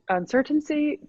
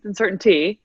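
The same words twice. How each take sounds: First: Uncertainty lifted high in a sing-song; uncertainty, pitched up playfully; sing-song repeat. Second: Said in the usual way. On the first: Shown as a demonstration. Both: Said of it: "again, a lot of uncertainty".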